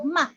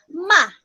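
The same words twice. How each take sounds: First: The syllable is light, short and unstressed. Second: The pitch falls sharply and forcefully. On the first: "light lang and then dili kay siya kusog" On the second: "the fourth tone is going down"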